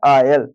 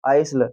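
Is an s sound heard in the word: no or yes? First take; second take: no; yes. First: The s sound is left silent in the word. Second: The s sound is pronounced in the word. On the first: The speaker calls it right. "यहाँ पे जो एस है वो silent हो जाएगा" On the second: The speaker calls it wrong. "अगर आपको पढ़ते आइस आइसल आइसल आप ऐसे पढ़ाते"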